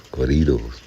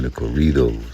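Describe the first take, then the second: First: Corridos with a rolled Spanish r; Spanish pronunciation. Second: Said in the usual way. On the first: Shown as a demonstration. Repeats with Spanish sounds.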